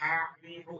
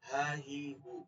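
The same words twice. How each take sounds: First: The h sound is pushed out with strong pressure. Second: The h sound is said softly without pressure. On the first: The speaker calls it wrong. "চাপ দিয়ে বলবো না, হা হি হু এরকম না" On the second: The speaker calls it right. "হাটা হবে এখান থেকে"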